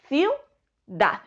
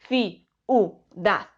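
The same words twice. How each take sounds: First: "ciudad" with iu glided into one syllable; joined diphthong. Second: "ciudad" slowly as ci-u-dad; split syllables. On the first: Teacher showing students the right way to say ciudad. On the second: Teacher showing students the wrong way to say ciudad. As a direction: pull the i and u apart, slowly. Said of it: "no decimos". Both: Shown as a demonstration.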